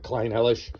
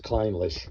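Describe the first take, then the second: First: The name has three syllables, with an extra middle one. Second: The name has two syllables, with no extra middle one. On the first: The speaker calls it wrong. "I had a tendency to call it Kleinhellish" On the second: The speaker calls it right. "the proper pronunciation is Kleinlish"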